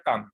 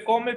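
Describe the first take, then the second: First: "come" as one syllable, KAM; English "come" with an open "a" sound and no final vowel; correct English pronunciation. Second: "come" read as Spanish KO-meh; "come" sounded out in Spanish spelling, ending in -eh; spelling pronunciation. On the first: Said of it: "pero se pronuncia come". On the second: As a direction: say "come" letter by letter as written, two syllables, KO-meh. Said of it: "Se escribe come". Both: Shown as a demonstration.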